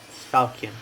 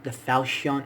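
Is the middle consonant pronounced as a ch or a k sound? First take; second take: k; ch. First: The middle consonant is a k sound. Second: The middle consonant is a ch sound. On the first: The speaker calls it right. "the C the H is silent" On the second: The speaker calls it wrong. "I hate the way some people say Falcon"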